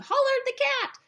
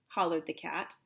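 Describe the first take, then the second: First: It is said loudly, as an exclamation. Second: It is said plainly, without exclaiming.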